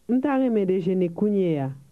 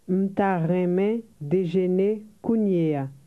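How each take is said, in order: First: It is said at a rapid conversational speed. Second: It is said at a slower, careful speed.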